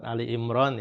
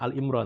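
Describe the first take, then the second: First: It is said with 'Ali' and 'Imran'. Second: It is said with 'Al' and 'Imron'. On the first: The speaker calls it right. "jadi surat Ali Imran" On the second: The speaker calls it wrong. "bukan Al Imron"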